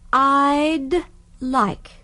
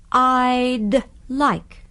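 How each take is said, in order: The two takes are said the same way.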